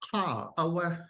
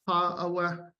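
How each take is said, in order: First: The high tone falls in pitch. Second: The high tone stays level without falling. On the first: This is the Southern dialect form. "In Southern Tlingit, this has falling tone" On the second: This is the Northern dialect form. "we have an example in Northern Tlingit"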